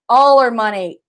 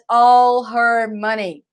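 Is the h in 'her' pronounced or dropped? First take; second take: dropped; pronounced. First: The h in her is dropped and linked. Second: The h in her is clearly pronounced. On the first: "O H aqui a gente come um pouquinho" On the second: "It's okay to say in English"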